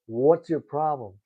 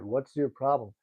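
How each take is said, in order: First: What's your problem punched louder; a mild mock confrontation, raised; louder retold demand. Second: Said in the usual way. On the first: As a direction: repeat it harder, confronting him. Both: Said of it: "The guy's like".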